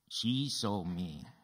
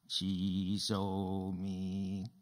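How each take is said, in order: First: The stress is on the word she. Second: No word is stressed; the delivery is flat. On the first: "Who saw you?" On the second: "Say, she saw me with no expression"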